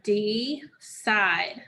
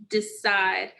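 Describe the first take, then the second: First: Decide said slowly, syllable by syllable, de and cide apart; split into syllables. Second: Said in the usual way. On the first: Shown as a demonstration. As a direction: say decide in two slow beats. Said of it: "And what are those syllables?". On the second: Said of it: "focus on first is the word".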